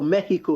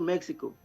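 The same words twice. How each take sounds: First: It is said with the local Spanish pronunciation. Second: It is said with the usual English pronunciation.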